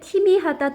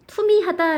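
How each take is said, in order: First: The first vowel is a spread ee sound. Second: The first vowel is a rounded oo sound. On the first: The speaker calls it wrong. "잘못된 발음입니다" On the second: The speaker calls it right. "표준 발음은 투미하답니다"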